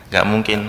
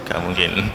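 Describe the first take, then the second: No difference in how they are said.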